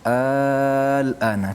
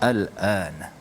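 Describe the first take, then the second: First: The opening vowel is drawn out long. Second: The opening vowel is kept short. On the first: It asks a question. "dia panjang al-ana" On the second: It simply means now. "kita baca pendek sajalah"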